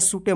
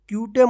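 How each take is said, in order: First: It begins with s and ends with e. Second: It begins with ky and ends with an extra e. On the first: "मत पढ़िएगा" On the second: "मत पढ़िएगा"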